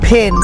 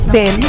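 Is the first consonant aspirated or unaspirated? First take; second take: aspirated; unaspirated. First: The p sound has a strong puff of air. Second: The p sound has no puff of air. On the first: The speaker calls it right. "no, this is pen" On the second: The speaker calls it wrong. "আমরা বলে থাকি পি"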